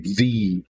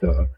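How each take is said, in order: First: The word is said with strong emphasis. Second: The word is said plainly, without emphasis. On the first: "when you're trying to put an emphasis on it, some people say the" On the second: "it's pronounced the"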